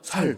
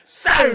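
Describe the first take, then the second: First: The first s sound is soft and plain. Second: The first s sound is tense and strong. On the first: The speaker calls it wrong. "그래서 제가 살" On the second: The speaker calls it right. "쌀 해봐"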